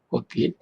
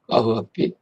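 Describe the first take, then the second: First: One merged word, with an o sound in the middle. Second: Two separate words, the first ending in breathy h. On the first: "연성 법칙에 의해서 꼬비로 바뀐 겁니다" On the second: "원래는 까흐 앞비예요"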